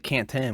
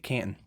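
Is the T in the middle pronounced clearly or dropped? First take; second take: clearly; dropped. First: The middle T is pronounced clearly. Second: The middle T is dropped, Ohio style.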